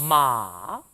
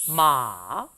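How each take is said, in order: Both takes have the same delivery.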